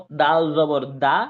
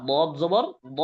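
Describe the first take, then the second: First: Said in the usual way. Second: Slow, heavy d on "দদ জবর দ"; মোটা দদ. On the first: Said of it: "এটা যেহেতু normal হরফ". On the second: Shown as a demonstration. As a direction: thicken "দ" into a full, heavy syllable, not a light "দা". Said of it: "কিন্তু দদ মোটা হরফ না ভাই?". ("দ" মোটা ও ভারী করে)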